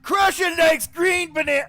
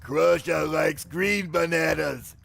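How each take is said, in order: First: It is said in Chunky's character voice. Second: It is said in the speaker's normal voice.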